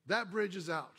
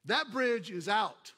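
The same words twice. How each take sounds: First: Said in the usual way. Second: Loud, slow shout of warning; slow booming warning. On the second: Acted. Sermon opener, shouted slowly.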